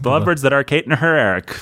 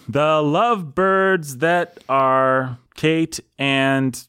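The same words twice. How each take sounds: First: "The Lovebirds that are Kate and her Eric" said fast in one go; quick run-through. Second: "The Lovebirds that are Kate and" dragged out beat by beat; metrical scansion. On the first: Host trying the completed verse, quick run-through. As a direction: rattle off the finished line. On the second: Host fitting listeners' names into meter, slow scansion. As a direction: count the syllables slowly aloud. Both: Shown as a demonstration.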